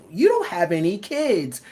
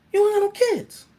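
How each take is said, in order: First: Said in the usual way. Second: DONT shot up high and loud in disbelief; incredulous yell. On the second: Shown as a demonstration. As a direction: throw "don't" up high like you can't believe it.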